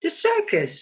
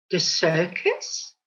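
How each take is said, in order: First: The circus. jumps high, then falls firmly; matter-of-fact confirming. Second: The circus? said low, slow and soft, baffled; puzzled question. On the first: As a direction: say The circus. brightly high as the plain answer. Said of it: "replies the landlord". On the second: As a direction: let The circus? sink low and slow in disbelief. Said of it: "the duck inquires". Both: Acted.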